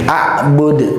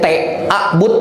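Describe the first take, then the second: First: The final consonant is a clear echoing d. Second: The final consonant sounds like a t. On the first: The speaker calls it right. "huruf dalnya harus keluar dengan kol kolkolahnya" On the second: The speaker calls it wrong. "apalagi jadi t"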